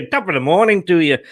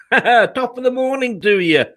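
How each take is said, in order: First: A rushed, badly faked Irish lilt; a second, quicker try at the Irish greeting; clumsy mock Irish; bad Irish accent. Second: Hammed-up Irish lilt, with a laugh; a playful Irish "top of the morning"; jokey Irish brogue; mock Irish greeting. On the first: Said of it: "that was bad, wasn't it?". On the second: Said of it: "don't know why I've gone Irish".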